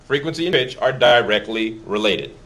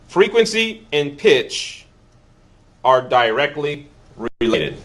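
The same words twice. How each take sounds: First: Said in the usual way. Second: Slow, deliberate, with pauses between the phrases; slow emphatic statement. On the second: Shown as a demonstration. Teacher stressing the key rule to the class, slow and emphatic. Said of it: "here's the statement I want you to know".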